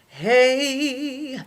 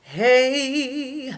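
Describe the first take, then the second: First: The voice is full and chest-resonant. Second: The same.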